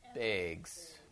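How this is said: It is said in a Wisconsin accent. "I have grocery bags"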